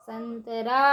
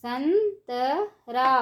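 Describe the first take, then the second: First: Said in the usual way. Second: संतरा stretched slowly, syllable by syllable; slow syllable drill. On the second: Shown as a demonstration. Teacher drawing out संतरा slowly for children. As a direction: draw out संतरा for the class. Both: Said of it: "ऊंची आवाज़ में कैसे पढ़ेंगे".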